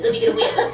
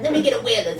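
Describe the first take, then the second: First: Much higher, squeaky stoner voice; high-pitched stoner voice. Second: Lightly voiced stoner, a bit higher and laughing. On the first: Retold or imitated. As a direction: push up into a squeaky, burnt-out stoner. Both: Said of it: "High-pitched voice and everything".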